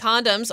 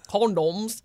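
First: It is said in a plain American accent. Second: It is said in a mock British accent.

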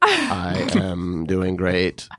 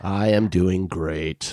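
First: The voice goes up at the end. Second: The voice does not go up at the end.

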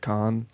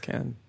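First: The name gets its formal pronunciation. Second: The name gets its casual pronunciation. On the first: This is how the name is said in formal settings. "if it's a formal thing, I'll say it's Kahn" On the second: This is how friends say the name. "for all friends, and it's Kahn"

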